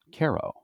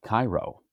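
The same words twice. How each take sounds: First: "Caro" said KAIR-oh, as locals say it; local pronunciation. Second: Said in the usual way. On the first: Shown as a demonstration. Pastor showing how Nebraska locals name their town, "Caro" as KAIR-oh. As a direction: say "Caro" with an AIR vowel up front. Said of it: "but they pronounce it Caro". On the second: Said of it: "that looks like Cairo".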